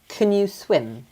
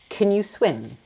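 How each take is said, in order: First: The vowel in can is weak and reduced. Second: The same.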